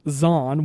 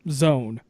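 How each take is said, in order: First: The name does not rhyme with English 'zone'. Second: The name sounds like English 'zone'. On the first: The speaker calls it wrong. "what I like to call Zon" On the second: The speaker calls it right. "it is pronounced as Zone"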